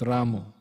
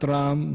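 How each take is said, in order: First: The word ends with an o vowel. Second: The word ends on the consonant, no vowel. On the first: "not Ramo" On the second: "Not Ram either"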